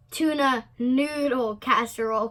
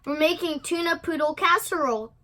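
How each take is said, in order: First: NOODLE picked out in an even pitch; correcting. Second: Higher, quick little croon. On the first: Mama corrects the girl's poodle mistake, stressing NOODLE. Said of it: "corrected Mama". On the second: Sister chats about making supper, crooning. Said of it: "crooned his sister". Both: A narrator's reading.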